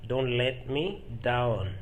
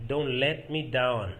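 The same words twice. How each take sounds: First: "Don't let me down" stretched out; slow, careful teaching take; slow repetition. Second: Said in the usual way. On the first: Shown as a demonstration. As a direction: give each word of "Don't let me down" room.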